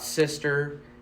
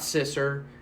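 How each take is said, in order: First: It is said with a short 'i' and 'st'. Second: It is said with a short 'i' and 's'. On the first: "It's not Sister" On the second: "it's not Sisser"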